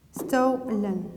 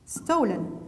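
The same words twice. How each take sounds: First: STOLEN split into two drawn-out syllables; syllable-by-syllable dictation. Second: Said in the usual way. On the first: Shown as a demonstration. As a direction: dictate STOLEN with a gap after STO. Repeats word slowly for writing.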